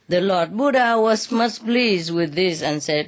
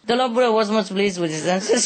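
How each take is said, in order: First: It is read slowly. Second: It is read very fast.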